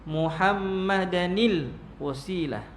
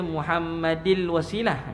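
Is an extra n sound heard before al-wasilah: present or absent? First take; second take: present; absent. First: An added n sound links the two words. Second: No added n sound links the two words. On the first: "ditambah nun kecil" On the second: "Dia tak boleh baca Muhammadil wasilah"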